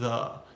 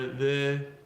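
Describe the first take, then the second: First: The vowel is short and relaxed. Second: The vowel is full and tense. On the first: The speaker calls it right. "neutral, very relaxed pronunciation" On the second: The speaker calls it wrong. "It's not the"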